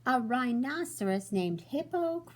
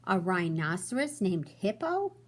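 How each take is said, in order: First: Higher, louder delighted cry; cried out. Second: Said in the usual way. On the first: Acted. Fluffy laughing at the rhino's name, excited cry. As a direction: shout out the joke in delight. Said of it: "Fluffy cried". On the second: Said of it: "Fluffy smiled".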